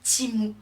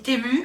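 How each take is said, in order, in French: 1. La première voyelle sonne comme 'ee'. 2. La première voyelle sonne comme 'eh'. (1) "Parce que ça se dit Timu" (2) "tout le monde dit Temu"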